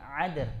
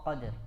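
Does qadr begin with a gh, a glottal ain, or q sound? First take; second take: ain; q. First: It begins with a throaty ain sound. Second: It begins with a deep back q sound. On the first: The speaker calls it wrong. "Dia merubah dari kepada huruf ain juga nggak boleh" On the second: The speaker calls it right. "tetap dia di makhrajnya tidak berubah"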